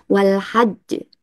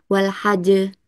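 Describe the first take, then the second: First: "wal hajj" with the j held, then bounced; doubled j. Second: "wal hajj" with a light single j, bounced at once; undoubled j. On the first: Teacher showing the reading with tasdid, j held then bounced. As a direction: stop on the jj of "hajj" before releasing it. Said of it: "Tapi kalau ada tasdidnya". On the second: Teacher contrasting a reading without tasdid, light single j. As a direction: release the j of "hajj" straight away, no hold. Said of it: "kalau nggak ada tasdidnya". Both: Shown as a demonstration.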